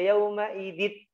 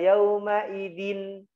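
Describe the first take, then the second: First: The n sound merges into the next sound. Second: The n sound is pronounced fully and clearly. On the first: "tidak yauma idit, dimasukkan tanwinnya" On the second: "tidak yauma idin, jelas"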